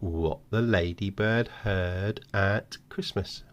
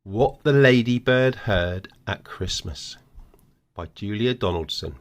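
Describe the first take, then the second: First: Slow, hushed reveal. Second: Announcing the title. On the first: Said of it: "and now you've got". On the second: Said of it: "Right, what's the story?". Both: Shown as a demonstration.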